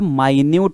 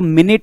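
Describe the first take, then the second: First: The first vowel is a long 'eye' sound. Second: The first vowel is a short 'ih' sound. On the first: It means very small or detailed. "आणखी एक उच्चार होतो जो काय होतो बघा" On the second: It means sixty seconds. "याचा pronunciation किंवा उच्चार जो होतो तो मिनिट होतो"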